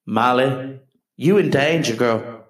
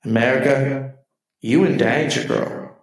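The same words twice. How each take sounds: First: Put-on lightly sassy "you in danger, girl"; a hint of a psychic's warning; sassy Ghost quote. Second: Put-on lightly sassy "America, you in danger, girl"; mock warning to the country; a hint of a psychic's warning; sassy Ghost quote. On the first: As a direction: warn her with mock sass. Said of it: "I just tell her in my own way". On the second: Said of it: "That's what I'd like to say to our country".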